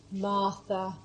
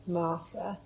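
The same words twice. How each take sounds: First: Said in the usual way. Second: Soft, rising. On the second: Shown as a demonstration. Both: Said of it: "Put your name there".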